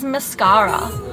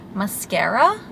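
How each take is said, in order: First: It is said in an Australian-style accent. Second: It is said in an American accent. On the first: "as in like an Aussie accent" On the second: "however Americans say that"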